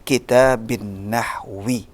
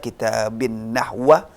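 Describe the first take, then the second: First: The second word ends with an i vowel. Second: The second word ends with an a vowel. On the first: The speaker calls it right. "Maka dibaca" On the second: The speaker calls it wrong. "Nggak bisa"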